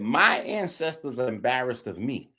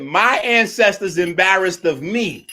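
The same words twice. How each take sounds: First: Mocking quote. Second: Louder, slow mocking echo; louder mocking quote. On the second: Streamer mocking Jabari's words, louder and slow. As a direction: drag it out to ridicule him.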